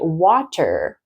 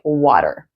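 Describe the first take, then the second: First: The middle consonant is a clear T. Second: The middle consonant is a fast D. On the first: "I didn't say water, which you can" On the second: "it's really American to say water, where it's like a fast D"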